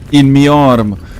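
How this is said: It is said in a put-on British accent.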